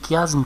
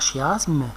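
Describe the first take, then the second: First: The word begins with a k sound. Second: The word begins with an sh sound. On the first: The speaker calls it right. "c'est le chiasme" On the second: The speaker calls it wrong. "pas chiasme"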